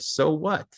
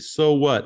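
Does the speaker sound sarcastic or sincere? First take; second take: sincere; sarcastic. First: It is said as a sincere, literal question. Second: It is said in a sarcastic, dismissive tone. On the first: The speaker wants to know the consequence. The speaker calls it right. "I want you to use it quite literally" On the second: The speaker's news does not matter. The speaker calls it wrong. "Often people say this and they're sarcastic"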